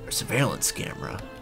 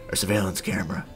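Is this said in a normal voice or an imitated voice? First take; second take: normal; imitated. First: It is said in the speaker's ordinary voice. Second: It is said in an imitated, put-on voice.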